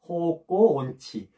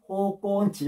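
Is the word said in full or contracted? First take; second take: full; contracted. First: The full form keeps the syllable on. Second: The syllable on is dropped in fast speech.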